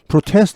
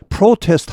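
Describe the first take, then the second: First: The second syllable carries some stress. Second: The second syllable is weak and unstressed. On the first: It is used as a verb. "protest 하면 시위하다" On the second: It is used as a noun. "protest 하면 시위입니다"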